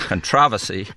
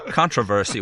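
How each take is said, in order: First: It is said with a British pronunciation. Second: It is said with a Southern American pronunciation. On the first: "half of the English teachers were of British uh, origin, and where they would say controversy" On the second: "and we say controversy"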